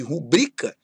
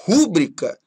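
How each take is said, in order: First: "rubrica" with the stress on BRI; stress on middle syllable. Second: "rúbrica" with the first syllable stressed; misplaced stress on first syllable. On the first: Teacher giving the correct form, "rubrica" stressed on BRI. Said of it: "ao invés de rubrica". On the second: Teacher showing students a prosody error, "rúbrica" stressed on RÚ. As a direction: wrongly hit RÚ in "rúbrica". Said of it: "rúbrica ao invés de rubrica". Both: Shown as a demonstration.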